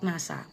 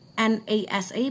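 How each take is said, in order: First: It is said as one word. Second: It is spelled out letter by letter. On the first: The speaker calls it right. "but it's called NASA" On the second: The speaker calls it wrong. "It's not called NASA"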